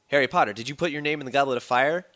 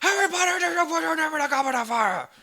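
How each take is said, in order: First: The question is asked in a calm voice. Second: The question is asked in an aggressive voice.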